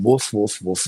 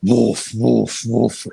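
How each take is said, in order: First: Light mock dog barks; small woofs. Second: Louder mock big-dog barks; big dog woofs. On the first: Hookers barking like small dogs for a drunk client, light woofs. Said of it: "these Sheilas are crawling around going". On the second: Drunk client demands big dogs, louder mock barking. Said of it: "No, no, no, big dogs".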